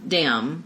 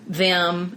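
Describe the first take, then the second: First: The word begins with a hard 'd' sound. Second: The word begins with a soft 'th' sound.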